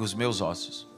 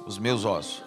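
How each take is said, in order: First: It is said at normal volume. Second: It is said loudly.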